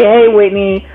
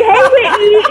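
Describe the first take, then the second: First: Said in the usual way. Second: Bright, high sing-song hello; playful imitation of an upbeat check-in greeting; perky greeting. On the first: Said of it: "and then I was like". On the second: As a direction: chirp the name like a cheerful host. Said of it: "you was just like".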